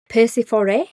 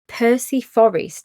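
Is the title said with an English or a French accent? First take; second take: French; English. First: It is said with a French accent. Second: It is said with an English accent. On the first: "if I was gonna say French" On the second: "if I'm gonna say it in an English accent"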